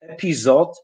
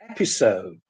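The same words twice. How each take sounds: First: It is said with a Polish-style pronunciation. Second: It is said with an English-style pronunciation. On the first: The speaker calls it wrong. "In Polish we say episode" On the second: The speaker calls it right. "in English we say episode"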